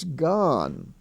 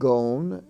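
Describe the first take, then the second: First: The vowel is short, not long O. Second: The vowel is a long O as in lone. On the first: The speaker calls it right. "it's gone" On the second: The speaker calls it wrong. "is not gone"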